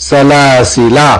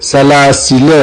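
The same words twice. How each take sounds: First: سلاسلا slow, long final "laa"; written long ending. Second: سلاسل as "salaasila", short final a; alif left silent. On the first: Teacher cites the written form, long-ending سلاسلا. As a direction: hold the last alif of سلاسلا. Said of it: "آخری والا الف". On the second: Teacher shows the reading, سلاسل with short "la". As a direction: cut the ending of سلاسل to short "la". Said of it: "الف نہیں پڑھا جائے گا". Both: Shown as a demonstration.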